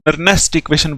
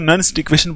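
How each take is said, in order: First: The name has an extra vowel, two syllables. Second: The name has no extra vowel, one syllable. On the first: The speaker calls it wrong. "कुछ कुछ लोग इसको नर्नेस्ट equation बोलते हैं" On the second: The speaker calls it right. "लेकिन हम इसको नर्न्स्ट equation बोलेंगे, यही सही है"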